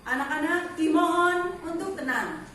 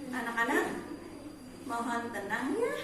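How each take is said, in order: First: "Anak-anak, dimohon untuk tenang" said firmly, rising mid-sentence and then settling; a firm command tune with "tenang" stated, not asked; correct command intonation. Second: "mohon tenang ya" with a rising, question-like end on "ya"; soft rising tune on "ya", like a question instead of a command; wrong intonation. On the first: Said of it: "Itu kalimat perintah, intonasinya tepat". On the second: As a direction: ask "Anak-anak, mohon tenang ya" as if it were a question. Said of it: "intonasinya kurang tepat". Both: Shown as a demonstration.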